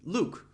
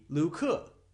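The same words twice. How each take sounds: First: It is said as one syllable. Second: It ends with an extra uh syllable. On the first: The speaker calls it right. "one syllable" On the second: The speaker calls it wrong. "if the E were pronounced as uh ... That is not the correct pronunciation"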